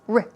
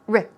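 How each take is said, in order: First: It is a short 'r' with a reduced vowel. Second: It is a short 'r' with a reduced vowel.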